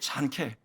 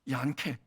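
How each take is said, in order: First: The name begins with a J sound. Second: The name begins with a Y sound. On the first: "이게 잔케" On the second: "자기 이름 제대로 불러줬다는 거야"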